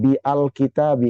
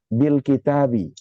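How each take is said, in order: First: A separate 'a' syllable is pronounced before 'l'. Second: The 'bil' is one short linked syllable. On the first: The speaker calls it wrong. "dibaca dengan bi al kitabi? Enggak" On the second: The speaker calls it right. "Hamzahnya nggak dibaca"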